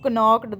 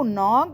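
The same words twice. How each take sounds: First: The k sound is pronounced. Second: The k sound is silent. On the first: The speaker calls it wrong. "ये गलत हुई ना हमारी pronunciation" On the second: The speaker calls it right. "नॉक्ड में भी हमारा के silent जाएगा"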